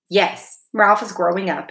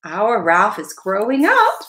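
First: A touch of sadness, falling on "up"; understated sad acceptance; sad note. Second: Slow, with a lift on UP; aunt's slow, lilting "growing up"; admiring remark. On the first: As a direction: agree with mild wistfulness. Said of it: "with a sad note in her voice". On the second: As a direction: draw it out, rising on "up". Aunt remarks proudly, rising ending. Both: A narrator's reading.

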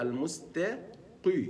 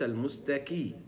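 First: المستقي, never like ك; heavy qaf. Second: المستكي with a light ك sound; المستكي, ق turned into ك; wrong qaf. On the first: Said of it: "يقول إيه". (القاف المفخمة ببطء) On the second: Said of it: "وليس". (نطق خاطئ للقاف) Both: Shown as a demonstration.

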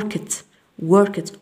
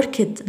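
First: "worked" ending in a T sound. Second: "worked" in two beats, work-ed; wrong -ed. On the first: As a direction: close "worked" on a crisp T for the ED. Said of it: "نقول worked". (نطق "worked" بتاء في آخرها) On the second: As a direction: give "worked" an extra syllable, as a learner's mistake. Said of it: "لا نقول worked". (نطق "worked" خطأً بمقطعين) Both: Shown as a demonstration.

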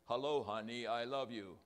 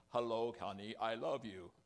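First: "Hello, honey, I love you" held on one level note; robotic endearment, every word equally weighted, no inflection; strict emotionless monotone. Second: Near-monotone HONEY and LOVE, a slight lilt creeping in; mock robot endearment, not quite level on "I love you"; monotone slipping into inflection. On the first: Retrying the automaton greeting to a spouse, strictly monotone. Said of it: "so I couldn't even be that". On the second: Automaton greeting a spouse, monotone with a little inflection. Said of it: "there was inflection in my voice". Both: Shown as a demonstration.

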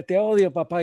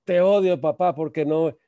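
First: Short, high mocking outburst; angry mimicry. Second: Loud, high-pitched outburst; mock yell of a furious kid; angry child. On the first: Father imitating his son's words back at him, angry mimicry. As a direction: throw the child's angry cry straight back, high and loud. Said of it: "y lo imito, ¿verdad? Con la misma energía". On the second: Nine-year-old son lashing out at his father, angry outburst. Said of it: "el niño me dice a los nueve años".

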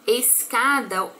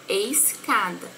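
First: Said in the usual way. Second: "escada" with the S and the C each sounded separately; slow demonstration of "escada", S then hard C; sounding S and C. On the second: Shown as a demonstration. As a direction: say "escada" slowly, letting both S and C be heard. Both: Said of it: "eu falo o som do S e o C".

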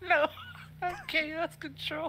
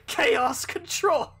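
First: Much higher, slow, drawn-out cry; hammy hero voice, stretched; Sonic voice. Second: Slow, drawn-out villain call; shadow voice. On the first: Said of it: "the Sonic voice". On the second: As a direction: stretch it out like an edgy antihero. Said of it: "give him the shadow voice". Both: Acted.

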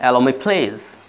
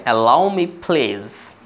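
First: Said in the usual way. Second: Allow me please stretched out syllable by syllable; very slow demo. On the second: Shown as a demonstration. Teacher modelling Allow me please for students, very slowly. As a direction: drag each word out for the class. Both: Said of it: "repeated model phrase".

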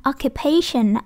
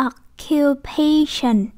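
First: "occupation" in one go, stress on PA. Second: "occupation" very slow, syllable by syllable, PA stretched; stress before final syllable. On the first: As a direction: say "occupation" without breaks, PA stands out. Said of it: "nhấn cái ấy ha". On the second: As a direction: spell out "occupation" slowly, leaning on PA. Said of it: "trước cái duration này thì chúng ta nhấn". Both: Shown as a demonstration.

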